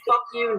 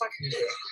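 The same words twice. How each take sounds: First: It is said in a hostile, serious tone. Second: It is said laughing, in a joking tone. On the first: It is meant as a real insult. "I could say fuck you" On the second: It is meant as friendly teasing. "or I could say haha fuck you"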